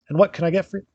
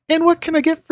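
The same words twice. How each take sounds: First: It is said in a plain, natural voice. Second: It is said in a high-pitched character voice. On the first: The speaker calls it wrong. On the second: The speaker calls it right.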